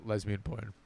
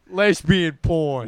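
First: It is said quietly. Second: It is said loudly.

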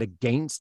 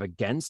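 First: The word is said with a Canadian vowel. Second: The word is said with an American vowel. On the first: It sounds odd to American listeners. The speaker calls it wrong. "he said some words that were really weird" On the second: It is what American listeners expect. The speaker calls it right. "instead of"

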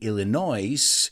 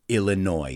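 First: The final S sound is pronounced. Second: The final S sound is silent. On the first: The speaker calls it wrong. "we don't say Illinois" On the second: The speaker calls it right. "La S es muda"

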